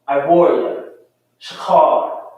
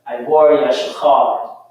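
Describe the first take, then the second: First: It is read at a slower pace. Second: It is read at a fast pace.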